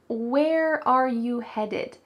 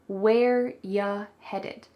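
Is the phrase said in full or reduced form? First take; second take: full; reduced. First: Every word is said fully, including are. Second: Are is dropped and you becomes ya.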